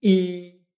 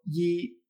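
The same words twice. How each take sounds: First: I as a long pure vowel; Y como I. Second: Yi with a consonant Y, like ll; yi erróneo. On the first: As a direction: hold I with no consonant before it. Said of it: "esto se pronuncia". (I larga y limpia, sin consonante inicial) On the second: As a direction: start yi on a Spanish Y sound. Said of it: "Pero yi no es". (yi con Y consonántica, como elle) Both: Shown as a demonstration.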